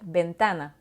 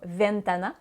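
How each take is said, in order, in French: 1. Le mot commence par un son de type B. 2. Le mot commence par un son V français. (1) "mais on va bien dire ventana" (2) "on ne dira pas ventana"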